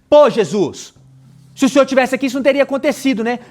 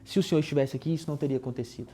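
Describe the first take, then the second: First: It is said in an indignant, reproachful tone. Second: It is said in a calm, mild tone.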